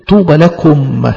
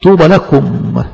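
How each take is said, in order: First: Drawn out, deliberate; slow solemn echo. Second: Drawn out, deliberate; slow blessing. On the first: Preacher repeating the blessing, slow and solemn. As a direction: repeat it slowly. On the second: Preacher blessing the persecuted, slow and solemn. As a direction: say it slowly, savoring each word. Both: Shown as a demonstration. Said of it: "repeated blessing".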